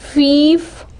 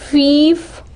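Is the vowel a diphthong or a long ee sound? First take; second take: long ee; long ee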